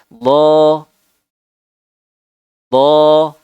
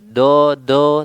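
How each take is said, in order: First: The consonant is made with the tongue's side. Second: The consonant is made with the tongue tip. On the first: The speaker calls it right. "tapi dari samping do do" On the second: The speaker calls it wrong. "bukan do do"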